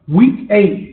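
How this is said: It is said in a New York accent.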